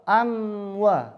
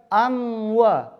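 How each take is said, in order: No difference in how they are said.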